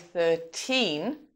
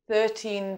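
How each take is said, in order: First: The stress is on the second syllable. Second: The stress is on the first syllable. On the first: The number is said on its own. "we might say thirteen on its own" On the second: The number is followed by a stressed word. "we'd say thirteen pounds because of the word pounds following"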